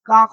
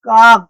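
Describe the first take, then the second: First: The word ends in a voiceless k. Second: The word ends in a voiced g.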